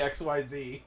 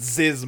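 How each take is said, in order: First: It is spelled out as three letters. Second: It is said as one short word. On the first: The speaker calls it wrong. "not say XYZ" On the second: The speaker calls it right. "I think you're supposed to pronounce it as a word"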